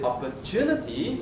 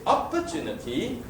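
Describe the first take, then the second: First: The stress is on the third syllable. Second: The stress is on the first syllable. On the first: The speaker calls it right. "It's the third, right? ... It's a third syllable stress" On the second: The speaker calls it wrong. "If I stress on the first syllable"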